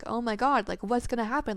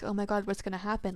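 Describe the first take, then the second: First: It sounds thrilled and excited. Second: It sounds worried and anxious.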